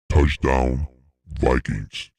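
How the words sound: It is said in a Darth Vader voice.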